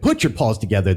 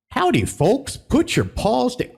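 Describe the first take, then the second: First: Said in the usual way. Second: High, slow Southern bear host voice; lightly put-on Southern accent; Country Bear drawl. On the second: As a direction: ham up a folksy Southern welcome. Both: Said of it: "I'm not even gonna do the accent".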